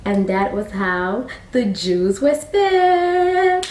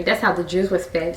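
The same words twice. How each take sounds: First: Slow, drawn-out sing-song close; storybook ending. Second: Said in the usual way. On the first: A narrator's reading. Storyteller wrapping up the tale, slow sing-song.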